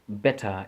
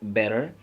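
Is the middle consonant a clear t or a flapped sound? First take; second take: clear t; flapped. First: The middle t is a clear t sound. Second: The middle t is a soft flapped sound. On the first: "in like in British English" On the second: "they say better"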